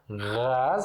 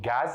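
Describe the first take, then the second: First: It begins with a throaty, gargled gh sound. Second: It begins with a plain hard g sound. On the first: "em árabe a gente pronuncia como gás" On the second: "Ou vocês podem pronunciar como G mesmo"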